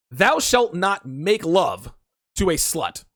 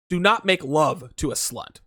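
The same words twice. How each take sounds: First: Slow, solemn biblical decree; mock-solemn commandment, slow. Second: Said in the usual way. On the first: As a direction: proclaim it like scripture. Pronouncing his commandment.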